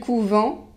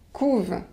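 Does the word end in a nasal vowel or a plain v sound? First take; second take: nasal vowel; plain v. First: The word ends in a nasal vowel. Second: The word ends in a plain v sound. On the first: It is the noun meaning convent. "vous devez prononcer la nasale" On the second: It is the verb meaning they brood. "on ne prononce pas le E N T"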